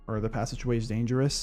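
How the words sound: It is said like a natural real-world person.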